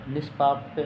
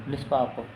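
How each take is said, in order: No difference in how they are said.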